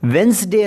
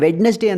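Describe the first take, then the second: First: No d sound is pronounced in the word. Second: A d sound is pronounced in the word. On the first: The speaker calls it right. "Letter ಡಿ silent ಆಗಿರುತ್ತೆ" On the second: The speaker calls it wrong. "ಇದು ತಪ್ಪಿದು"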